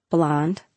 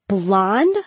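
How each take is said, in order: First: Low, falling "Blonde" as an answer; matter-of-fact BLONDE. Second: "Blonde?" swooping up into a question; incredulous BLONDE. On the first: Girl answers friend's question on hair color, matter-of-fact. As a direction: say "Blonde" low, as a settled statement. Names the colour she wants. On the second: Friend hears the choice of hair color, incredulous. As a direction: echo "Blonde?" in disbelief, rising steeply at the end. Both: A narrator's reading.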